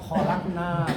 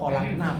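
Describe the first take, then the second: First: The final vowel is held long. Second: The final vowel is cut short. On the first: We made it. "kalau kami membuat kholakna panjang" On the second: Many women made it. "kalau kholakna pendek, itu banyak wanita membuat"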